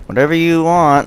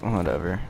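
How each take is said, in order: First: Lilting high imitation; imitated girl. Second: Soft, offhand retold brush-off; low-key, indifferent retold reply; dismissive. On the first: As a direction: mimic the girl, pitched well up. Girl's reply, imitated, against his own. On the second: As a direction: toss it away quietly. His dismissive reply to hers.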